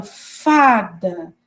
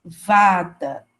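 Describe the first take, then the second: First: Fada with a breathy unvoiced F, drawn out slowly; voiceless F in fada. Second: Vada with a buzzing voiced V, pitched lower. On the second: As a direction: show the vibrating V at the start of Vada. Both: Shown as a demonstration. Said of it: "quando eu falo aí fada".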